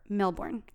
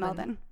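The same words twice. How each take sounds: First: The last syllable sounds like 'born'. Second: The last syllable is short and reduced. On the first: This follows the spelling. "spelled more Melbourne, like Jason Bourne" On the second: This is how locals say it. "Australians get upset because they call it Melbourne, so I'm going to call it Melbourne"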